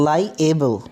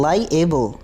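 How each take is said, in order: Both takes have the same delivery.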